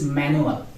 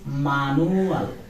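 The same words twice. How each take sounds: First: It is pronounced with English sounds. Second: It is pronounced with Spanish sounds. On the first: "In English it is manual" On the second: "but in Spanish it is manual"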